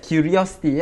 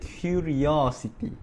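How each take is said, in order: First: The vowels are of normal length. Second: The vowels are drawn out and elongated.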